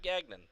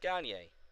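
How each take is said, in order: First: The name ends with a 'non' sound. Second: The name ends with an 'ay' sound. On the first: The speaker calls it wrong. "It's not Gagnon" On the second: The speaker calls it right. "It's Gagne. It's French"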